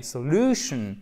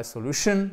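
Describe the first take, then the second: First: "solution" drawn out on LU, falling afterwards; correct stress, second syllable. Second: "solution" with the weight on the final SHUN, rising; wrong stress, last syllable. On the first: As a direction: stress the middle syllable of "solution" and let the end drop. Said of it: "mais solution". (accent tonique correct sur la deuxième syllabe de « solution ») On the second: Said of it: "non pas solution". (« solution » mal accentué, sur la dernière syllabe) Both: Shown as a demonstration.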